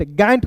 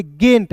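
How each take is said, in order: First: गैंट with an open "ae" vowel; mispronounced गैंट. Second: गेंट with a long "ay" vowel; correct गेंट. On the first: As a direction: say गैंट with ऐ, as misread. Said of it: "गैंट नहीं पढ़ेंगे". (गैंट में ऐ की गलत आवाज़) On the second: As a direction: say गेंट with ए, not ऐ. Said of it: "उच्चारण ए के रूप में करेंगे". (गेंट में ए की आवाज़) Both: Shown as a demonstration.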